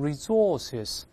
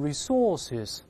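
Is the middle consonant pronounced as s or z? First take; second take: z; s. First: The middle consonant is a buzzing z sound. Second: The middle consonant is a hissing s sound. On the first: "发z 都可以" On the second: "这个s 发s"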